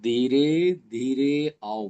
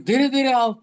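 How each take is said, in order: First: The phrase is said slowly. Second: The phrase is said quickly. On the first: The delivery matches the meaning of the words. The speaker calls it right. "धीरे शब्द को भी जो है धीरे धीरे आओ बोलना है" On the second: The words contradict their own meaning. The speaker calls it wrong. "धीरे धीरे को भी जल्दी बोल देते हैं"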